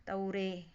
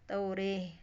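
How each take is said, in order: No difference in how they are said.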